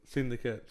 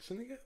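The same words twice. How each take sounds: First: Said in the usual way. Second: Syndicate? asked much higher and softer, a doubting rise; Syndicate? rising high in disbelief; surprised question. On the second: Real, not acted. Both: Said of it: "Uh, S-, Syndicate".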